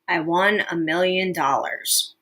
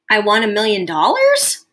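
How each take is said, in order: First: It is said as a plain, unemotional statement. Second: It is said as a question, changing near the end. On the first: The winner treats it as no big deal. "I am making a statement, and there's not a whole lot of emotion with that" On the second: The speaker is asking whether it is true. "Can you hear how a person's voice changes near the end of a question?"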